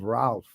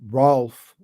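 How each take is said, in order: First: The vowel falls between A and O. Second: The vowel sounds like a plain O. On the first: The speaker calls it right. "it's sort of in between those two letters. It's kind of Ralph" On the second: The speaker calls it wrong. "Rolf would be the O"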